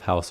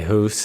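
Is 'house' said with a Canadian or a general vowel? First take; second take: general; Canadian. First: The vowel is open, general style. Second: The vowel is raised, Canadian style. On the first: "instead of" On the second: "the pronunciation of the O U"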